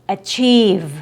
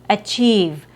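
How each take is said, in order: The two takes are said the same way.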